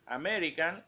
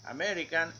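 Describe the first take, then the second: Both takes have the same delivery.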